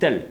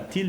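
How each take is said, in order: First: The vowel is an open 'eh' sound. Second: The vowel is a close 'ee' sound. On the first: The speaker calls it right. "mais on dit tel, parce qu'il est devant deux L" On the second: The speaker calls it wrong. "on dit pas til"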